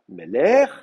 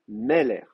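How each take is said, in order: First: The stress is on the second syllable. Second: The stress is on the first syllable. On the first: The speaker calls it wrong. "on ne dit pas Meler" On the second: The speaker calls it right. "on dit Meler"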